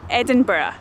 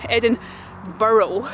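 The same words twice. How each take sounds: First: It is said the way Edinburgh locals say it. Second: The ending sounds like the word burrow. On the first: The speaker calls it right. "the way she says it, she grew up in Edinburgh" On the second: The speaker calls it wrong. "which is like a rabbit burrow"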